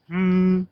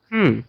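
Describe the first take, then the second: First: The pitch stays high and level. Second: The pitch falls sharply from high to low. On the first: "flat tone is like" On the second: "fourth is"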